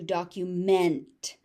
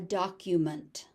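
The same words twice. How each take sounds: First: The last syllable sounds like 'meant'. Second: The last syllable sounds like 'munt'. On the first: The word is used as a verb. "meant as a verb" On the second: The word is used as a noun. "So it's munt as a noun"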